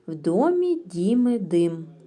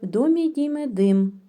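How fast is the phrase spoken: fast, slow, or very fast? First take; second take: slow; very fast. First: It is spoken at a slow pace. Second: It is spoken at a very fast pace. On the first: "спочатку треба вимовляти в уповільненому темпі" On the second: "І дуже швидко"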